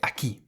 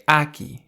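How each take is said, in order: First: The stress is on the last syllable. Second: The stress is on the first syllable. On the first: The speaker calls it right. "you say aquí" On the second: The speaker calls it wrong. "You don't say aquí"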